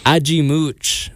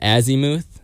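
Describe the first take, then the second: First: The name is said with Portuguese pronunciation. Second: The name is said with English pronunciation. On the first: This is how the band says it. "Ajimooch is how they were pronouncing it on stage" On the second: This is how outsiders had been saying it. "which I was calling it Azimuth"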